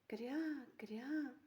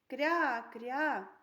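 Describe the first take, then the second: First: It is said in a quiet voice. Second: It is said in a loud voice. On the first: "Скажіть тихенько" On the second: "Скажіть, будь ласка, голосно"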